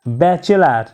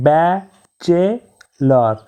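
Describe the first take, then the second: First: Said in the usual way. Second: ব্যাচেলর said slowly as ba-che-lor; slow split of ব্যাচেলর after the normal take; syllable by syllable. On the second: Shown as a demonstration. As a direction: break ব্যাচেলর into three slow beats. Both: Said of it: "তিনবার উচ্চারিত শব্দ".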